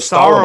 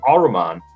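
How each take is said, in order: First: The name is said with an initial S sound. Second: The name is said without an initial S sound. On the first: The speaker calls it right. "instead of Saruman" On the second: The speaker calls it wrong. "They didn't even pronounce the S"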